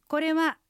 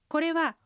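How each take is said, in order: The two takes are said the same way.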